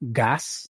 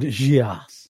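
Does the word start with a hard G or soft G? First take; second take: hard G; soft G. First: The word begins with a hard G sound. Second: The word begins with a soft G sound.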